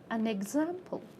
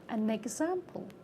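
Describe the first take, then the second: First: The n is carried into the next word. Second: The n is carried into the next word.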